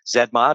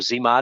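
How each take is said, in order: First: The term is said in a non-American pronunciation. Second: The term is said in an American pronunciation.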